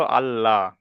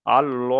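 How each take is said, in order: First: আল্লাহ with a light, open "laa"; thin "barik" pronunciation. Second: আল-ল with a heavy, rounded "lo"; full "pur" pronunciation. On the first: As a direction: keep the lips unrounded on the লা of আল্লাহ. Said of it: "তখন হবে বারিক". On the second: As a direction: round the mouth on the ল of আল-ল. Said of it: "ল করে পড়তে হবে". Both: Shown as a demonstration.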